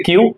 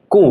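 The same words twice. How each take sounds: First: English Q, क्यू with a y-glide; English letter name. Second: German Q, कू with no glide; German letter name. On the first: Teacher contrasting alphabets, English क्यू with glide. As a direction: say क्यू as kyoo, English style. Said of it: "English में इसको बोलते हैं क्यू". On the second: Teacher showing German Q, कू without y-glide. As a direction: say कू as pure koo. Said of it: "German की अगर मैं बात करूं". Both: Shown as a demonstration.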